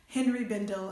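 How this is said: The name is said with an American accent. "as Americans say"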